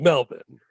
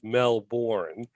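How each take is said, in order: First: The second syllable is reduced to a weak vowel. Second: The second syllable is said with a full vowel. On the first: The speaker calls it right. "but it's Melbourne, right?" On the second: The speaker calls it wrong. "even though it says Melbourne"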